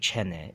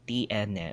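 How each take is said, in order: First: The word is squeezed into fewer syllables. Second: The word is said with three full syllables. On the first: "They'll just make it as one or two syllables instead of three" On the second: "it's three syllables, tiene"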